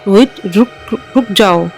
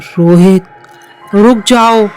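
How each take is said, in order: First: The words are said with a slight stammer. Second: The words are said in a clear voice.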